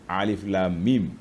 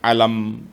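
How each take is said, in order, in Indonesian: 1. Setiap huruf disebut sendiri-sendiri, satu-satu. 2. Hurufnya disambung jadi satu kata. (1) "dibaca satu-satu" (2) "Jangan baca alam"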